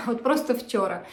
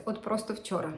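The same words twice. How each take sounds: First: Laughing through the words. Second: Said in the usual way. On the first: Real, not acted. Crafter amused at her own quick start, laughing. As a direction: repeat it with a real laugh.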